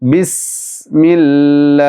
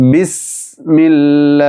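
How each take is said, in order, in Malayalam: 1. s ശബ്ദം കാറ്റൊഴുകിക്കൊണ്ട് നീട്ടിപ്പിടിക്കുന്നു. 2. s ശബ്ദം കാറ്റൊഴുകിക്കൊണ്ട് നീട്ടിപ്പിടിക്കുന്നു.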